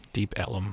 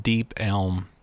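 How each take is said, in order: First: "Deep Ellum" with three-syllable e-lum; "Ellum" said as EL-lum, two syllables; corrected Deep Ellum. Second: "Deep Elm" said as one syllable, elm; "Elm" clipped to a single syllable; mispronounced Deep Elm. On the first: Corrected by cohost, repeats "Deep Ellum" as EL-lum. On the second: Reading Texas bar history aloud, says "Deep Elm" with one-syllable elm. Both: Real, not acted. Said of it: "Is it Deep Ellum?".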